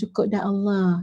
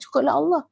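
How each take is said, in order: First: It is said in a resigned, giving-up tone. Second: It is said in a happy, firm tone. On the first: It only just suffices, so one settles for it. The speaker calls it wrong. "Jangan cakap macam tu. Bukan macam tu intonasi" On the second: It is truly more than enough. The speaker calls it right. "dengan gembira, dengan teguh"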